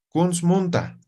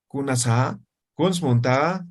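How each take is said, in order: First: "Kunsmunta" said level with a falling end, no question lift; flat Aymara tune. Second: "Kunasa", "Kunsmunta" each rising at the end like Spanish; wrong question rise. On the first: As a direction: let "Kunsmunta" drop, not rise. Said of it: "No estoy entonando". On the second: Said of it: "Yo no digo". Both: Shown as a demonstration.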